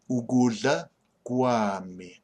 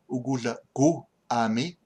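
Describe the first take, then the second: First: The vowels merge into one syllable 'kwami'. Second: The syllables 'gu' and 'ami' stay separate. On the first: "it becomes a w" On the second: "It is actually gu"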